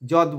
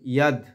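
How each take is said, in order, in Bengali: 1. শব্দটি j ধ্বনি দিয়ে শুরু হয়। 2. শব্দটি y ধ্বনি দিয়ে শুরু হয়। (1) "যদ বলবো না" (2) "ইয়া। অন্তস্তকে সবসময় আমরা ইয়া উচ্চারণ করি।"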